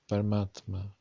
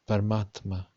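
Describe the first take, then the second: No difference in how they are said.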